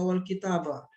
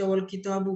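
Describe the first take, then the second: First: Wal kitabah ending in open "bah"; final -a vowel. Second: Wal kitabu ending in "boo"; final -u vowel. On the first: Teacher offering another reading, "wal kitabah" with final a. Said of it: "Kenapa nggak wal kitabah". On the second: Teacher asking why it is read so, "wal kitabu" with final u. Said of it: "Kenapa baca wal kitabu". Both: Shown as a demonstration.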